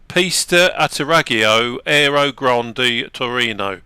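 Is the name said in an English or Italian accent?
English. It is said in a plain English accent. "If you don't say it with an accent"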